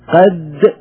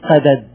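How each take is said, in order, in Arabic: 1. تندمج الدالان في دال واحدة طويلة. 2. يفصل بين الدالين صوت علّة. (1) "قد بالإدغام" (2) "قدد أطول"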